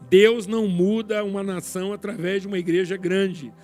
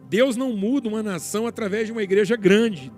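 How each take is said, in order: First: It is said slowly. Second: It is said at normal speed.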